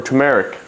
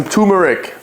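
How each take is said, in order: First: "turmeric" as too-MERR-ick, no first r; alternative pronunciation, "too-MERR-ick". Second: "turmeric" without the first r, as TOO-mer-ick; first pronunciation, "TOO-mer-ick". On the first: Offering viewers another option, "turmeric" said as too-MERR-ick. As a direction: open the middle of "turmeric" to MERR. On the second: Showing off the supplement, "turmeric" said as TOO-mer-ick. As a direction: stress the TOO in "turmeric", drop its r. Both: Shown as a demonstration. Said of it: "how you wanna say it".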